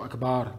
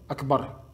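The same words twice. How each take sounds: First: The second vowel is drawn out long. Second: The second vowel is short. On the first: It means drum. The speaker calls it wrong. "changer le sens de Akbar, en disant Akbar, qui veut dire tambour" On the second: God is greatest. The speaker calls it right. "sans prolonger le deuxième A de Akbar"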